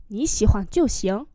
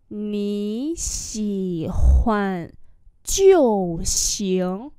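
First: Said in the usual way. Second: Very slow, drawn-out syllables; teacher's slow demo; slow model reading. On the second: Shown as a demonstration. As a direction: stretch "Nǐ xǐ huàn jiu xiang" syllable by syllable. Same phrase drawn out for learners.

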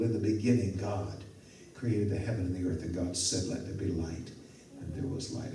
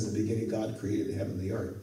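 First: Hushed, dropping low and soft; softly savoring each word of Genesis; reverent reading. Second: Rattled off fast in passing; a fast aside quoting Genesis; quick quote. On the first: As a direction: read the verse with quiet awe. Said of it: "It's so believable". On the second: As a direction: toss the verse off quickly. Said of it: "when he writes Genesis and tells us". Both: Shown as a demonstration.

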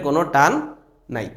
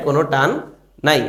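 Both takes have the same delivery.

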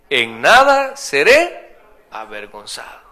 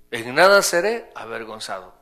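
First: En nada seré avergonzado slow and loud, leaning on nada; emphatic reading. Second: Said in the usual way. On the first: Shown as a demonstration. Pastor reading the verse aloud to the congregation, slow and loud. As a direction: proclaim the verse slowly with weight on nada. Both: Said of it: "¿qué dice ahí?".

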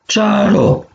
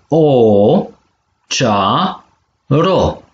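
First: Said in the usual way. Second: Long o, then cea and ro apart; syllable by syllable. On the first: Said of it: "Savoro alaf si". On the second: Shown as a demonstration. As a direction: split it cea - ro, with a gap between. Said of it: "So de silabe si". (pe silabe: cea, ro)

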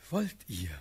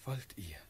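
First: Louder, insistent asking; urgent question. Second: Soft, breathy asking; tentative question. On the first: Suitor pressing Natalie for her consent, urgent and louder. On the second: Suitor asking Natalie for her consent, tentative and soft. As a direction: ask it softly, almost under the breath. Suitor asks timidly, then again. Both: Acted.

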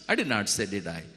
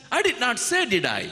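First: Said in the usual way. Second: Much higher, rising question; God reminds Adam he never said it; God's gentle challenge. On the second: Acted. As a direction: tease out the truth. God's rhetorical question, high.

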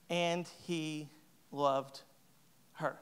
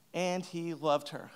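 First: Softer and very slow, with a long pause before "her"; drawn-out, hushed and tender. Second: Softer, slow "And he loved her"; quiet, slower echo; soft repeat. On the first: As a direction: savour "and he loved... her" like a tender reveal. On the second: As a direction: say it again quietly, letting it land. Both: Shown as a demonstration.

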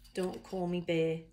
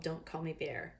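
First: Attempted Australian accent, "bear" without the R. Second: Said in the usual way. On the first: Reader announcing a koala book to friends, attempted Australian accent. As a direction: read the title as an amateur Australian. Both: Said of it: "read this in an Australian accent".

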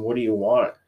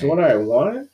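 First: Slightly low, even question; understated question from a lightly acted Batman; lightly voiced Batman. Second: "I" lifted, question rising at the end; echoed question, stress on I. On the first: Batman asks the Joker, lightly acted low question. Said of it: "Batman asks him". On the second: Retold or imitated. Joker answers Batman's question, echoing it with "I" stressed. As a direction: throw the question back, leaning on "I". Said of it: "He goes".

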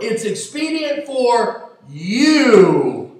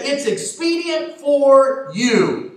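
First: Slow, with "you" leaned on hard at the end; stress on YOU. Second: Said in the usual way. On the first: Shown as a demonstration. Preacher to congregation, stressing who benefits: weight on "you". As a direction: drag out "It's expedient for you" and land on "you". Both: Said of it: "Now we've got to stress the word".

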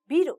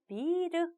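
First: "미르"의 첫 모음을 짧게. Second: "미르"의 첫 모음을 길게. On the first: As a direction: say "미르" with a short first vowel, no lengthening. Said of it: "여기 장음이 빠지면". ("미르"를 장음 없이 짧게 발음) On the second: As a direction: hold the first vowel of "미르" long. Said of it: "길게 장음 처리해서". ("미르"의 첫 모음을 길게 늘여서 발음) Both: Shown as a demonstration.

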